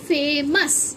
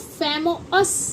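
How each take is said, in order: First: The ending is pronounced as a short 'us'. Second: The ending is pronounced as 'oh-us'. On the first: The speaker calls it right. "ओ यू को हम अ पढ़ते हैं" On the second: The speaker calls it wrong. "ऐसे नहीं पढ़ेंगे"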